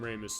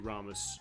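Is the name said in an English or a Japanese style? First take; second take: English; Japanese. First: The name is said in an English style. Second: The name is said in a Japanese style. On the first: The speaker calls it wrong. "They call him Ramus. ... They pronounce wrong" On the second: The speaker calls it right. "The uh, Japanese pronunciation would be Ramus"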